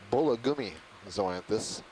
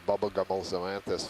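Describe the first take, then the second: First: The name begins with the sound 'bulla'. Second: The name begins with the sound 'bubble'. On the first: The speaker calls it right. "It is Bullagumi zoanthus" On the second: The speaker calls it wrong. "I may have mispronounced it"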